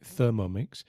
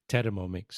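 First: The word begins with a soft 'th' sound. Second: The word begins with a hard 't' sound. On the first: This is how English speakers say it. "an English speaker would say Thermomix" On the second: This is how it is said locally in Spain. "but here is Thermomix"

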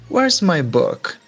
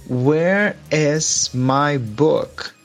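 First: It is said at normal speed. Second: It is said slowly.

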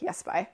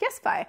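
First: It sounds annoyed. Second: It sounds excited.

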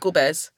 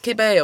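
First: The word is said the Cypriot way. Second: The word is said another country's way. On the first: This is how it is said in Cyprus. "in Cyprus, we say gobez" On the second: This is how it is said in other countries. "In different countries, it's kibbe or kibba"

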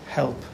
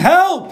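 First: The word is whispered very quietly. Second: The word is screamed very loudly. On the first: "usually you don't whisper" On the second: "You scream"

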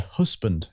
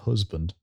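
First: The middle consonant sounds like an s. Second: The middle consonant sounds like a z. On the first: This is how the other person says it. "But you say husband" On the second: This is how the speaker says it. "But there's not a Z in it?"

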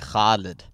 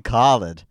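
First: The name has Arabic sounds and stress. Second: The name has simplified English sounds and stress. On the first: This is how the family says it at home. "in Arabic, like the way my parents say it" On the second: This is the easier form others can use. "just call me Khaled"

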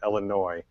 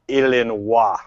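First: It is said with a plain American pronunciation. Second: It is said with a French-style pronunciation. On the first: "as we pronounce it" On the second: "is actually French. So they prefer you to pronounce it"

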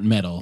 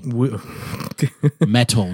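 First: The middle consonant is a soft, D-like flap. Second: The middle consonant is a crisp, clear T. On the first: The speaker calls it wrong. "not metal" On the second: The speaker calls it right. "With a T"

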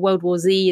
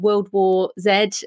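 First: The final letter is pronounced zee. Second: The final letter is pronounced zed.

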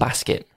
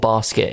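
First: It is said in a non-London accent. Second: It is said in a London accent.

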